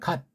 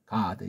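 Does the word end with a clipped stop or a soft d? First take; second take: clipped stop; soft d. First: It ends with a clipped, unreleased t-like stop. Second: It ends with a softly released d sound. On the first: "어떤 사람은 갓 그래요" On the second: "미국 소리는 없으니까 God ... 아주 부드럽게"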